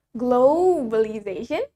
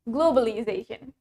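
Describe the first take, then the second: First: Globalization with a stretched "glo"; British drawn-out globalization; British pronunciation. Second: Globalization with a short, light "glo"; American quick-vowelled globalization; American pronunciation. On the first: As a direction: lean long on the first syllable of "globalization". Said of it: "in British English, we pronounce it as". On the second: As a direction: say "globalization" compactly, American style. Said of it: "In American English". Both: Shown as a demonstration.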